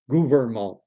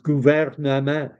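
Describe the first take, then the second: First: It is said with an English-speaker's pronunciation. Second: It is said with a natural French pronunciation. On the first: The speaker calls it wrong. "a lot of Anglophones, we say gouvernement" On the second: The speaker calls it right. "he pronounces things reasonably well. Uh, he says gouvernement"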